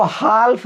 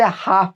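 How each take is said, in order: First: हाल्फ said with the l sounded, hal-f; wrong pronunciation. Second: हाफ said as haaf, the l silent; correct pronunciation. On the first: Teacher shows the wrong reading: हाल्फ with a sounded l. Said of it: "हाफ पढ़ते हैं". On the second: Teacher gives the right reading: हाफ, silent l. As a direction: drop the l, say just हाफ. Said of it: "इसको हाल्फ नहीं पढ़ते". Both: Shown as a demonstration.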